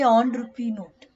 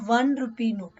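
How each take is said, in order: First: The first word starts with a vowel sound. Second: The first word starts with a w sound. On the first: The speaker calls it wrong. "We don't say on rupee note" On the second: The speaker calls it right. "You pronounce it as va"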